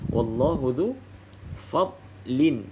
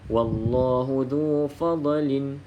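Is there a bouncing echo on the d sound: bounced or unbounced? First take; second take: unbounced; bounced. First: The silent d sound is held with no bounce. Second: The silent d sound has an audible bounce. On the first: The speaker calls it right. "tak boleh lantunkan" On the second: The speaker calls it wrong. "kalau fadlin bermaksud dah ada lantunan"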